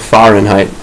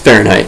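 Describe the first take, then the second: First: It is sounded out closely following its spelling. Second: It is said with its ordinary everyday pronunciation. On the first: It helps remember how the word is spelled. "That's how I remember how to spell it. I pronounce it like that" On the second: It is how the word is normally pronounced. "but it's Fahrenheit if you pronounce it"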